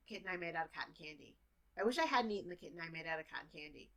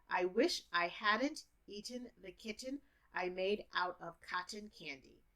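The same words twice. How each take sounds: First: Fast, native speaker pace; native speaker speed. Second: Teacher speed. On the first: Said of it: "as a native speaker". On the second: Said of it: "if I'm a teacher, you understand me". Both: Shown as a demonstration.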